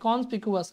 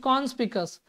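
First: The word ends in 'picu-us' with an extra syllable. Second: The word ends in 'picus' with no extra syllable. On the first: This helps remember the spelling. "यू हट नहीं सकता, ऐसे याद रखिए" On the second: This is how the word is read. "कॉन्स पीकू और अस"

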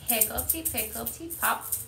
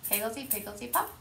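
First: It is said slowly. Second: It is said fast.

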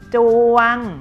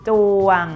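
First: The syllable is said on a level mid tone. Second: The syllable is said on a low tone.

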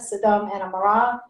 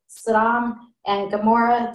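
First: It is said with a Hebrew pronunciation. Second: It is said with an English pronunciation.

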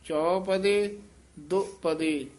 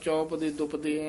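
First: The two words are separated by a slight break. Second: The two words run together without a break. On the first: The speaker calls it right. "ਥੋੜਾ ਜਿਹਾ ਨਖੇਰ ਕੇ ਪੜ੍ਹਨਾ ਹੈ" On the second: The speaker calls it wrong. "ਇਕੱਠਾ ਨਹੀਂ ਕਹਿ ਦੇਣਾ। ਚੌਪਦੇ ਦੁਪਦੇ ਐਵੇਂ ਨਹੀਂ ਬੋਲਣਾ"

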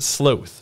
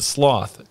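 First: The word is said the British way. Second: The word is said the Canadian way. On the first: "You pronounce it sloth" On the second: "I pronounce it sloth"

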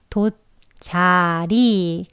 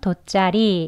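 First: Each syllable is read separately with plain consonants. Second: The syllables are linked with a tense middle consonant. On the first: "각각 글씨는 읽지만" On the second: "이어서 발음하게 되면 돗자리 이렇게 되는"

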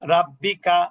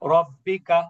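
First: The R is pronounced light and thin. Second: The R is pronounced heavy and full. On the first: The speaker calls it wrong. "কেউ যদি এভাবে পড়ে" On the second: The speaker calls it right. "রটা মোটা করে পড়তে হয়"

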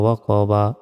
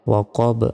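First: The word ends with a short final vowel. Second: The word ends on a consonant, vowel dropped. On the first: The reading continues without stopping. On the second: The reader stops after this word.

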